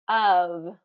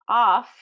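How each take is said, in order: First: The word ends with a v sound. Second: The word ends with an f sound. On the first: The speaker calls it right. "It's pronounced of" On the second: The speaker calls it wrong. "it's not off"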